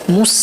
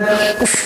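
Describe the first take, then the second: First: The s sounds thin, with lips held neutral. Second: The s sounds thick, with lips rounded forward. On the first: The speaker calls it right. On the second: The speaker calls it wrong.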